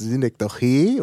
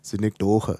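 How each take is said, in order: First: The stress is on the last syllable. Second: The stress is on the second-to-last syllable. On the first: This is the Greek pronunciation. "weil es in altgriechisch hinten betont ist" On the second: This is the German pronunciation. "die deutsche Betonung, vorletzte Silbe bei Fremdwörtern"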